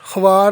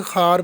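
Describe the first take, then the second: First: ख्वार said as khwaar, the v sounded; ख्वार voiced khwaar, the wrong way; wrong pronunciation. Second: खार said as khaar, no v; खार read with the v silent; correct pronunciation. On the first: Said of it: "ख्वार नहीं पढ़ेंगे". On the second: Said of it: "खार पढ़ेंगे". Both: Shown as a demonstration.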